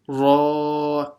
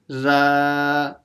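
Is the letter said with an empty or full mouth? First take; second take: full; empty. First: It is said heavy, with a full mouth. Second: It is said light, with an empty mouth. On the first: The speaker calls it right. "Read it full mouth" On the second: The speaker calls it wrong. "So don't read it as ra"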